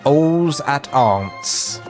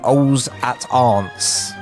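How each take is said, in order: First: The L sounds are left silent. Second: The L sounds are left silent.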